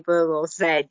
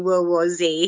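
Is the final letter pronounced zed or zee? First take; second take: zed; zee. First: The final letter is pronounced zed. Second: The final letter is pronounced zee. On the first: This is the British way of saying the letter. "He'd say World War Z" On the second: This is the American way of saying the letter. "he wouldn't say World War Z"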